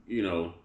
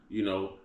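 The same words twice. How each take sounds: Both takes have the same delivery.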